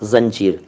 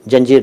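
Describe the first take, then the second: First: It begins with a 'z' sound. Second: It begins with a 'j' sound. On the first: The speaker calls it right. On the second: The speaker calls it wrong. "जंजीर नहीं"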